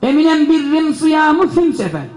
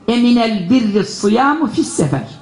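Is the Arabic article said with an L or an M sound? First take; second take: M sound; L sound. First: The article is said with an m sound. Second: The article is said with an l sound. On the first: This is one tribe's own dialect. "Eliflam yerine mim kullanıyor bir kabile" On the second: This is the commonly known Arabic. "bunun Arapçası bizim anladığımız nedir?"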